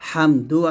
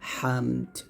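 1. শব্দটি একটি শেষ স্বরধ্বনি দিয়ে শেষ হয়। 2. শব্দটি শেষ ব্যঞ্জনধ্বনির উপর শেষ হয়। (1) "হামদু আছে" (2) "থামলে হবে হামদ"

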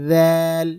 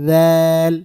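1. প্রথম ধ্বনিতে জিভের ডগা দুই দাঁতের মাঝে থাকে। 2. প্রথম ধ্বনিতে জিভের ডগা দুই দাঁতের মাঝে থাকে।

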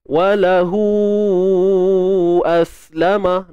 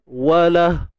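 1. Vokal akhir dipanjangkan hingga ke kata berikutnya. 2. Kata ini berhenti dengan cepat tanpa vokal panjang. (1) "Ketika sambung" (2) "Kalau kita berhenti bunyinya walah"

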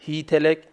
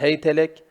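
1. h i ünlüsü alır; t a alır. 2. h ve t ikisi de a ünlüsü alır.

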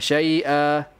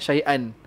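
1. Kata ini berakhir dengan vokal panjang yang terbuka. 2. Kata ini berakhir dengan bunyi n. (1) "Kalau nak wakaf dekat syai'a" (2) "jangan syai'an"

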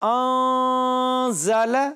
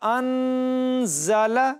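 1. n جزوی طور پر غنہ ہے، زبان تالو کو نہیں چھوتی۔ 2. n مکمل طور پر غنہ ہے، زبان تالو کو چھوتی ہے۔ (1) "یہاں ہونا ہے ناقص غنہ انزل" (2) "اگر کامل غنہ کرے نا تو پھر بنے گا انزل، اور یہ صورت غلط ہے"

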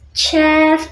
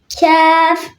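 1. Kelime ch sesiyle başlıyor. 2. Kelime k sesiyle başlıyor. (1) "Bazı kişiler ç diye diyebilir ama kef, çef değil" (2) "ama kef"

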